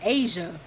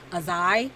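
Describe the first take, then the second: First: The name sounds like 'Asia'. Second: The name sounds like 'a-zai'. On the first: This is how the name used to be said. "I was pronouncing it as" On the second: This is how the name is said now. "the name Azai actually didn't used to be pronounced Azai"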